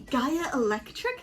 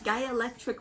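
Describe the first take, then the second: First: The name is said slowly and clearly. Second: The name is said quickly and run together. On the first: The speaker calls it right. "It's so fun to say" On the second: The speaker calls it wrong. "until you say it quickly, in which case it becomes"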